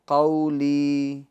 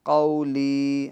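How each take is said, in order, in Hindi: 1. पहला अक्षर छोटा, नरम और बिना खिंचा है। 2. पहला अक्षर छोटा, नरम और बिना खिंचा है।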